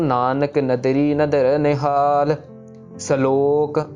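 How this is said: There is a short pause after nihal. The speaker calls it right. "निहाल जब खत्म हो गया तो उधर हमारा छोटा सा पॉज होना चाहिए"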